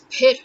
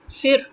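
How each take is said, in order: First: The word begins with a p sound. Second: The word begins with an f sound. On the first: This is the Urdu pronunciation. The speaker calls it right. "In Urdu, the word is pir" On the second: This is how Hindi speakers say it. The speaker calls it wrong. "similarly, you know, it would be um, fir"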